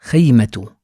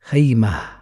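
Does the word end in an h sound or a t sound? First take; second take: t sound; h sound. First: The word ends with a t sound. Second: The word ends with a soft h sound. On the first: More words follow in the sentence. "The last sound is ta" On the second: The word ends the sentence. "The last sound is ha"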